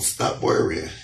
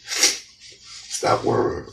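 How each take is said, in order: First: Soft whisper of reassurance; a whispered comfort. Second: Very slow, drawn-out whisper; stretched-out hushed reassurance. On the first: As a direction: breathe it out gently. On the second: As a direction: let each word linger, whispering. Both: Pretend. God's message repeated softly.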